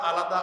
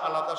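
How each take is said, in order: Both takes have the same delivery.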